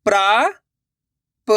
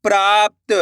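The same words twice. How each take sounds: First: "प्राप्त" split slowly as praa, pa, ta; sounded out by letters. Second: Said in the usual way. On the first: Shown as a demonstration. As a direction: break "प्राप्त" into parts with long pauses, rising on praa. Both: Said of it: "अक्षर का उच्चारण करके".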